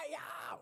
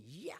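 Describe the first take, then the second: First: "yeah" squeaked high in creaky fry; high creaky fry scream. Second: Soft creaky "Yeah" in vocal fry; low creaky fry scream. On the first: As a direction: screech "yeah" high like a dinosaur. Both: Shown as a demonstration. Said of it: "the creaky door noise, or like the dinosaur scream".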